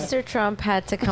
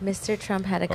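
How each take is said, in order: First: It is said in a louder, fuller voice. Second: It is said in a soft-spoken voice.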